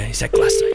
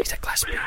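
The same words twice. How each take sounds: First: Much lower, hammed-up announcer intro; deep announcer voice. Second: Hushed mock-secret whisper. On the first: Host hyping the Glastonbury call in a mock deep announcer voice. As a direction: drop low and build it up like a trailer. Host's dramatic intro before calling Adam. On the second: Host whispering the Glastonbury intro before the call, playful whisper. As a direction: breathe it out like a secret.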